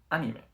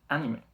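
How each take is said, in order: The two takes are said the same way.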